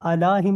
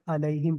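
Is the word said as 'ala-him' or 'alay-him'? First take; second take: ala-him; alay-him. First: The word is said as 'ala-him' with plain a. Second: The word is said as 'alay-him' with ay sound. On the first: The speaker calls it wrong. "अला हिम नहीं पढ़ सकते ना इसको" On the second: The speaker calls it right. "बेहतर प्रोनाउंसिएशन के लिए अरब के अंदर अलैहिम पढ़ा जाता है"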